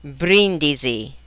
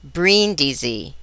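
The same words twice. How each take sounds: First: "brindisi" slowly, R tapped with the tongue tip; Italian R. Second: "brindisi" slowly and softer, with a pursed-lip English R; untrilled English R in "brindisi". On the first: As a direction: trill the R lightly in "brindisi". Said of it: "This is the Italian R". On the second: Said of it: "This is the English R". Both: Shown as a demonstration.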